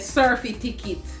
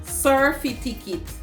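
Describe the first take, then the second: The two takes are said the same way.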